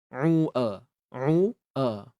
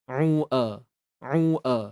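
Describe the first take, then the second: The two takes are said the same way.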